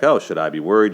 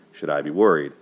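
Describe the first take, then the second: First: Louder, rising mock worry on oh; playing the worried fiancé, a touch louder; imitating Lon. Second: Said in the usual way. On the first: Fiancé asking Allie if he should worry, mock worried. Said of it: "he's like". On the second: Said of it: "you know, this is weeks before the wedding".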